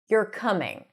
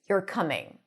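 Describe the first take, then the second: First: The pitch falls at the end. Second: The same.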